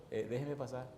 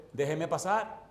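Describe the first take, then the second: First: Soft, tentative retold request; low-volume, undemanding ask; first polite request. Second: Firmer retold demand; pressing request, lifted at the end; insistent repeated request. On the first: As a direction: ask quietly to be let through. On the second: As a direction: insist on being let through. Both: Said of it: "vuelvo y le digo al hombre".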